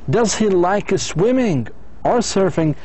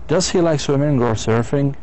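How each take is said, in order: First: The voice rises on swimming, falls on surfing. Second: The voice rises twice, ending high. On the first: It asks the listener to choose one item. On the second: It asks for a yes or no answer.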